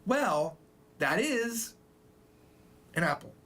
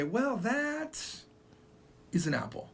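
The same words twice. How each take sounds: First: "Well," pause, "that is" pause, "an apple"; pause before "that". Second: "Well, that" then a pause, then "is an apple"; pause after "that". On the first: Teacher shows natural pauses in "Well, that is an apple". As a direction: pause only where it sounds natural. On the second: Teacher shows pausing after "that". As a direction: break the phrase after "that". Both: Shown as a demonstration. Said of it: "instead of saying".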